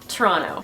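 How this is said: It is the pronunciation used by locals. The speaker grew up in the city. "they call it Toronto"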